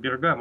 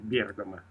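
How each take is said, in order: First: The stress is on the second syllable. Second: The stress is on the first syllable. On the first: This is how the city is sometimes called at home. The speaker calls it wrong. "у нас его иногда называют этот город Бергамо" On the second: This is the proper way to say the city's name. The speaker calls it right. "но вообще-то правильно ставить ударение Бергамо"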